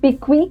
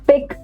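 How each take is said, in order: First: The word ends with an added vowel sound. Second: The word ends on a plain k sound. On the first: The speaker calls it wrong. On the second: The speaker calls it right.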